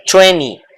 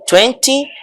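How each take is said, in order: First: "twenty" said as "twenny", second t dropped; twenty without T. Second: "twenty" with the second t sounded. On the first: Teacher shows both accepted forms, "twenty" reduced to twenny. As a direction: drop the middle t of "twenty": twen-ee. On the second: Teacher shows both accepted forms, "twenty" with its middle t. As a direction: say "twenty" fully, as twen-tee. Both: Shown as a demonstration. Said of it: "Cualquiera de las dos pronunciaciones".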